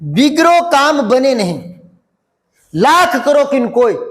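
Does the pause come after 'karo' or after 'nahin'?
nahin. There is a pause after 'nahin'. A failed task cannot be fixed however hard one tries. The speaker calls it right. "यहां coma आ गई"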